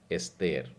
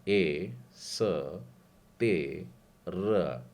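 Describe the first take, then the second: First: एस्तेर said as one word, falling; whole word. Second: ए स ते र split into separate slow syllables. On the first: Teacher joins the syllables into a word. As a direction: join it up: एस्तेर. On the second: Teacher sounds out the name for students. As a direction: spell ए स ते र out with pauses. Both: Shown as a demonstration. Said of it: "पढ़ने की कोशिश करिए".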